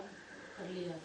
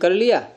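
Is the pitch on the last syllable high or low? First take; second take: low; high. First: The last syllable is said with low pitch. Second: The last syllable is said with high pitch. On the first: It answers that the meal has been eaten. "ये क्या हो गया? अनुदात्त।" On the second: It asks whether the meal has been eaten. "उदात्त तो कौन है इसमें? या का आ"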